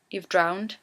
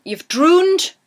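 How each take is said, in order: First: Said in the usual way. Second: DROONED with a long high "oo", punched up; Geordie drooned. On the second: Shown as a demonstration. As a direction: hit "drooned" hard with a drawn-out oo vowel. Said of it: "actually a Geordie word".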